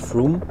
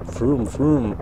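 First: The name is said plainly and briefly. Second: The name is drawn out like a revving engine.

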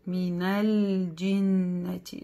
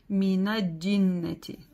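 First: The L is pronounced before a single J. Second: The L is dropped and the J doubled. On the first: The speaker calls it right. "Нет, «джим» не удваивается" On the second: The speaker calls it wrong. "И тоже иногда ошибаются, говорят"

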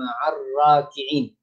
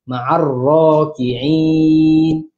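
First: The r is pronounced light and thin. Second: The r is pronounced heavy and thick. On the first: The speaker calls it wrong. "bukan ma'ar raki'in" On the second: The speaker calls it right. "ini pun sama ra"

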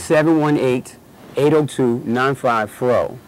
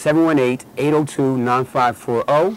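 First: The number is said slowly. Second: The number is said at normal speed.

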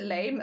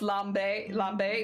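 First: The word sounds like English 'lame'. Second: The word does not sound like English 'lame'. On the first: The fabric is mocked as being bad. The speaker calls it wrong. "I will always pronounce it lame" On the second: This is the proper way to say the fabric's name. The speaker calls it right. "perhaps pronounce lambe"

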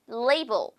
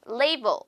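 First: It is said with English sounds. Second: The same.

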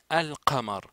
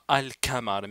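First: The consonant after al- is a deep back q. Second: The consonant after al- is a plain front k. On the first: The speaker calls it right. "mais al-qamar ... c'est qaf" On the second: The speaker calls it wrong. "c'est pas al-qamar"

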